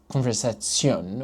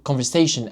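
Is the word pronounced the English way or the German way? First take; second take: German; English. First: The word has a German pronunciation. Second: The word has an English pronunciation.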